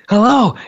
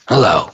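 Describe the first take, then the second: First: The greeting sounds warm and welcoming. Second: The greeting sounds cold and unwelcoming.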